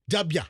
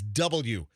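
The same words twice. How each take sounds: First: The letter is shortened to dubya. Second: The letter is said in full as double-u. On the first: "Like D U B Y A" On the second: "the right way to say that letter is W"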